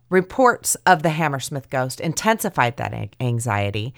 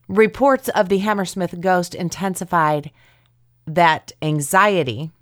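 First: The stress falls on a natural, expected word. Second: The stress falls on an odd, unexpected word. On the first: The speaker calls it right. "It's the where you put the emphasis on the right word" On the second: The speaker calls it wrong.

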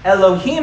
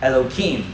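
First: The word is pronounced in its standard form. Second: The word is pronounced with an altered sound. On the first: The holy title is said as it is. "Elohim, however, is a little bit holier" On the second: The holy title is avoided out of reverence. "purposefully mispronounce this title"

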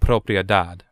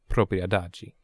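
First: The word ends with a plain d sound. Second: The word ends with a jee sound. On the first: The speaker calls it wrong. "I would have said it propria dad, not dagi" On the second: The speaker calls it right. "apparently it's pronounced propria dagi"

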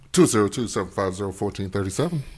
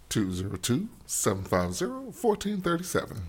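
First: The number is read at normal speed. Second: The number is read more slowly.

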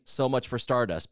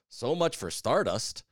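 First: The title is said with flat, even pitch. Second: The title is said with marked pitch movement. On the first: The speaker calls it wrong. "saying it plainly" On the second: The speaker calls it right. "has to be with the right inflection"

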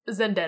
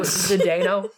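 First: The name begins with a full 'Zen' syllable. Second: The name begins with a clustered 'Zd' sound. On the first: The speaker calls it wrong. "No! It's not Zen!" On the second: The speaker calls it right.

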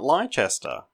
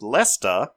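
First: It begins with a 'lie' sound. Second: It begins with a short 'less' sound. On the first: The speaker calls it wrong. "not Leicester" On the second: The speaker calls it right. "it's pronounced Leicester"

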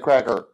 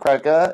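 First: The word ends with an 'er' sound. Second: The word ends with an open 'ah' vowel. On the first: "instead of" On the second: "you should use an A at the end"

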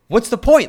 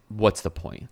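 First: It sounds aggressive and upbeat. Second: It sounds flat and hopeless.

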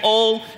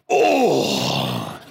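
First: The word is said weakly and flatly. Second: The word is said loudly with big energy.

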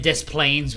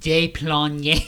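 First: The name is said the plain American way. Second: The name is said with a French pronunciation. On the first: "And then Des Plaines was like" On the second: "was like Des Plaines or something"

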